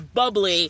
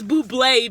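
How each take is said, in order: First: The name is given a plain, ordinary pronunciation. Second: The name is given a fancy-sounding pronunciation. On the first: This is probably the real name. "I'm pretty sure it's bubbly" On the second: It makes the drink sound classier. "I always call this buble because it sounds more more fancy"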